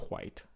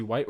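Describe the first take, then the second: First: "white" said "hwite", H sounded first; soft, airy "hw" starting "white"; breathy H first. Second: Said in the usual way. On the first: Shown as a demonstration. Asking about grandpa's whiteness, "white" said as "hwite". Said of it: "with the H". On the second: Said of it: "is he like the white".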